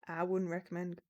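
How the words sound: It is spoken in an American accent. The speaker calls it wrong. "why am I going American?"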